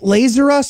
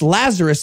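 First: It sounds like the words 'laser' and 'us'. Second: It sounds like the biblical name Lazarus. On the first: The speaker calls it wrong. "You don't even say it right" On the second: The speaker calls it right. "It's Lazarus"

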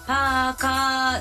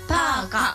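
First: The final vowel is drawn out long. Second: The final vowel is cut short. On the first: "パーカーじゃなくて" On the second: "本来はパーカとカの後に音引き、あの伸ばし棒が入りません。"

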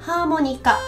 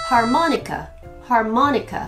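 First: It has Japanese-style intonation. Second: It has English-style intonation.

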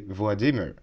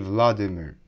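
First: The stress is on the second syllable. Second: The stress is on the first syllable. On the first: The speaker calls it right. "Correct stress will be Vladimir" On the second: The speaker calls it wrong. "Russians don't say Vladimir"

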